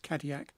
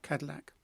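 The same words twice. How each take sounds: First: The word is said with French pronunciation. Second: The word is said with English pronunciation. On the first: The speaker calls it right. "the pronunciation in French is Cadillac" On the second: The speaker calls it wrong. "not Cadillac"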